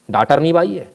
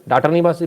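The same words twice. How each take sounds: First: भाई with a breathy aspirated bh; word bhai. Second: बाई with a plain unaspirated b; word bai. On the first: Correcting a misheard word, aspirated भाई. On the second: Contrasting the maid word, plain बाई. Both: Shown as a demonstration. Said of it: "बाई से सफाई कराओगे".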